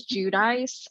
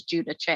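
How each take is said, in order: First: "Judice" said as JOO-dice; first-season pronunciation. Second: "Judice" said as JOO-dih-chay; next-season pronunciation. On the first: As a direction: rhyme the end of "Judice" with "ice", two syllables. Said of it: "she was pronouncing her name as". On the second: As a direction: end "Judice" in an Italian-style "chay", three syllables. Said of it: "she started pronouncing it as". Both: Shown as a demonstration.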